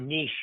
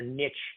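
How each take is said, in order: First: The word is said in the current way. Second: The word is said in the older way.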